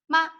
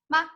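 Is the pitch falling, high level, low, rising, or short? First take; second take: short; short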